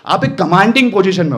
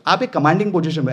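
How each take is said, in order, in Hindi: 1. 'commanding' शब्द पर मज़बूत स्ट्रेस है। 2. 'commanding' शब्द पर कोई खास स्ट्रेस नहीं है। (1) "अब मैंने कमांडिंग बोला" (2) "ऐसा नहीं"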